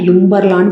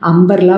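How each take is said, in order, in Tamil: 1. இந்த வார்த்தை 'yu' ஒலியில் ஆரம்பிக்குது. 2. இந்த வார்த்தை சாதாரண 'a' ஒலியில் ஆரம்பிக்குது. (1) "யும்பர்லான்னு படிக்க மாட்டோம்" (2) "அம்பர்லா படிப்பீங்களாம்மா"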